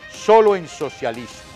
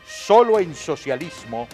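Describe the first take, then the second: No difference in how they are said.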